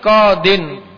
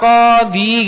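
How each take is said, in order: First: The word ends with an added n sound. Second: The word ends in a plain vowel. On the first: The speaker calls it right. "tapi qadin" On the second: The speaker calls it wrong. "jangan kemudian dibaca qadi gitu jangan"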